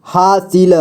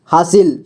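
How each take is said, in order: First: हासिल slowly as हा-सि-ल; syllable by syllable. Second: Said in the usual way. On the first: Shown as a demonstration. Teacher showing beginners how to read हासिल, syllable by syllable. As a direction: sound out each letter of हासिल. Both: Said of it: "जोड़ जोड़ करके ही पढ़ना होगा".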